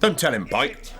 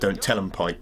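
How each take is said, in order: First: It is said in an imitated character accent. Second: It is said in the speaker's ordinary voice.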